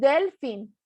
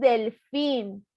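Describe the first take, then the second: First: The stress is on the first syllable. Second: The stress is on the last syllable. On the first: The speaker calls it wrong. "No decimos del fin" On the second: The speaker calls it right. "decimos del fin"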